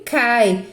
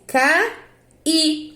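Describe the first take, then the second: First: "cai" as one syllable, CAI; cai as diphthong. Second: "caí" in two beats, CA... Í, higher; split hiatus caí. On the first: Teacher showing how she pronounces it, one-syllable cai. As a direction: glide A into I within one beat of "cai". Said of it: "eu pronuncio cai". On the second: Teacher dividing the word for pupils, syllable by syllable. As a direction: break "caí" apart, stressing the final I. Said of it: "agora mudou a minha pronúncia". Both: Shown as a demonstration.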